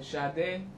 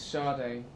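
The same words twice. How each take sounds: First: The name is said the Nigerian way. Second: The name is said the English way.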